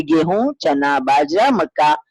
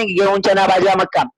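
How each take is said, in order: First: "गेहूं, चना, बाजरा, मक्का" item by item, rising before the last; list with comma pauses. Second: "गेहूं चना बाजरा मक्का" run together in one breath; list without pauses. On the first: Teacher showing what a shopper says, "गेहूं, चना, बाजरा, मक्का" separated. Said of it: "आप कहेंगे". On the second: Teacher showing how nobody shops, "गेहूं चना बाजरा मक्का" run together. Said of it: "आप जब खरीदने जाएंगे, थोड़ी ना". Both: Shown as a demonstration.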